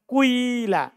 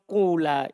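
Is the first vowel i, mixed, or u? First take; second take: mixed; u. First: A slight u glides into an i sound. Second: The first vowel is a long u sound. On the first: "dhammah sedikit, kemudian disempurnakan dengan kasro" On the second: "dhamma bersama waw"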